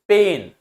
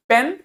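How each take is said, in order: First: "पेन" with a long drawn vowel, as in pain. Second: "पेन" with a short e, as in pen; short vowel. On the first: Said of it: "तो difference हो गया". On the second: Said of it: "short vowel मतलब short sound". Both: Shown as a demonstration.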